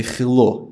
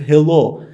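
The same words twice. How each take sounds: First: "hello" with a rough Russian kh for the h; Russian pronunciation of hello. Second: "hello" with an ordinary light h; standard pronunciation of hello. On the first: Guest shows the Russian way, "hello" starting with kh. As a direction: say "hello" as "khello", Russian-style. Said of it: "you say". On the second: Guest shows what not to say, "hello" with light h. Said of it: "you don't say he". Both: Shown as a demonstration.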